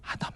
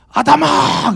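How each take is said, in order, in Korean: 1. 이름을 부드럽고 따뜻하며 다정한 어조로 부릅니다. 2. 이름을 엄하고 단호한 어조로 부릅니다. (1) "너무 친근한 주의 음성으로" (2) "사극 때문인가?"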